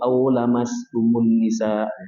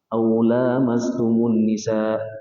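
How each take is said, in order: First: The vowel after the l is kept short. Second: The vowel after the l is held long.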